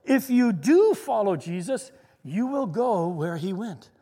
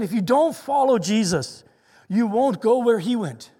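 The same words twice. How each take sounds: First: "do" drawn out and punched, "will" stressed. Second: "don't" and "won't" stressed; stress on the negatives. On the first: Real, not acted. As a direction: lean hard on "do", then slow for "will go". Flip side of the quote. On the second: Retold or imitated. Contrasts statement with flip side.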